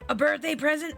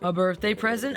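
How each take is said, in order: First: It is said in a laid-back surfer-boy voice. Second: It is said in an ordinary voice. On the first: The speaker calls it right. "That's it. ... Like a surfer boy. Like, I don't know, voice" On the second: The speaker calls it wrong. "wait, how did I do his voice?"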